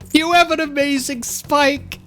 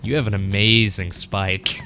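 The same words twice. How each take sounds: First: It is said sincerely, without sarcasm. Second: It is said with heavy sarcasm.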